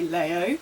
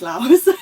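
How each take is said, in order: First: The word ends without an s sound. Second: The word ends with an s sound. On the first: The speaker calls it wrong. "I used to say Lao" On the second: The speaker calls it right. "but I think it's Laos"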